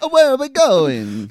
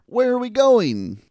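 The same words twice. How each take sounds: First: It is said in a put-on Italian accent. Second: It is said in a plain, unaccented voice. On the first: The speaker calls it right. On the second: The speaker calls it wrong.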